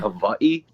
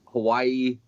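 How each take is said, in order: First: The middle consonant is a clear V sound. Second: The middle consonant is a clear W sound. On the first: "pronounce the W like a V" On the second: "a lot of people say like Hawaii"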